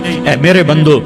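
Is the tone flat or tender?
flat. It is said in a plain, flat tone. The speaker calls it wrong.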